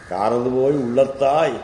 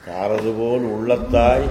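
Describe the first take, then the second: First: காரதுபோய் said with போய் instead of போல், fast and chanted; corrected reading. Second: காரதுபோல் with a final ல், said fast and chanted; verse as written. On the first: Teacher giving his corrected reading, fast recitation. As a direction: recite காரதுபோய் உள்ளத்தாய் quickly, ending போய். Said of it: "So it must be". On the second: Teacher giving the verse as printed, fast recitation. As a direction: recite காரதுபோல் உள்ளத்தாய் quickly, ending போல். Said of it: "It must be like that". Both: Shown as a demonstration.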